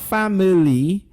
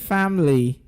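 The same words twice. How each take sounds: First: The middle vowel is pronounced as a full syllable. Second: The middle vowel is dropped, leaving two syllables. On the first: The speaker calls it wrong. "Not family" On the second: The speaker calls it right. "the letter I there disappears"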